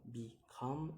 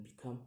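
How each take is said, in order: First: "become" split, second syllable rising; second-syllable stress. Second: Said in the usual way. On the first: Shown as a demonstration. Teacher giving an example, "become" split and rising. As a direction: say "become" in two beats, lifting the last. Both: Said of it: "put on the second".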